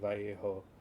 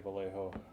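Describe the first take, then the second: First: It is pronounced the Spanish way. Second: It is pronounced the English way. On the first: The speaker calls it right. "respectful of my Spanish heritage and pronounce it like it's supposed to be" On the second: The speaker calls it wrong. "it's just so easy to say"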